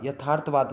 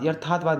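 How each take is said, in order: First: Said in the usual way. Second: यथार्थवाद said "yarthaathvaad", r moved forward; misplaced r. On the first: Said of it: "होगा भाई". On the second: Shown as a demonstration. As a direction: shift the r of यथार्थवाद into the first syllable. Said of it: "नहीं होता".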